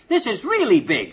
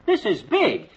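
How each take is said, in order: First: "really" drawn out for emphasis; slow down and lean hard on "really"; stress on "really". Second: High-pitched "big", thrilled; excited. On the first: Husband underlining the fortune, slow stress on "really". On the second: Husband thrilled at the uranium fortune, excited. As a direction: exclaim "This is big" at the find. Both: Acted.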